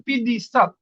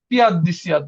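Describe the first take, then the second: First: পিদিসাত said slowly as one run-together word; correct pronunciation. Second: পিয়াদ দিসিয়াত read as two separate words, just as written; wrong spelled-out version. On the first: Teacher gives the right form to students, slow and careful. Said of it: "এটা পিয়াদ দিসিয়াত হবে না". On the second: Teacher reads the textbook's wrong spelling aloud, word by word. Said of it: "বাংলায় লেখা আছে যে". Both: Shown as a demonstration.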